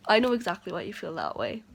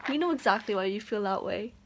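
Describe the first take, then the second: First: "I" punched, louder and faster; louder, faster repeat leaning on "I"; stress on I. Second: Said in the usual way. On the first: Shown as a demonstration. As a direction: hit the word "I" hard and rush the rest.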